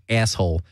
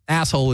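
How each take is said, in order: First: ASSHOLE with a tensed, raised A, "eh-asshole"; Jersey vowel. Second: Said in the usual way. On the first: Shown as a demonstration. Host admitting his accent slips, Jersey-style ASSHOLE. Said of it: "but I will sometimes say asshole". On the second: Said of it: "the standard".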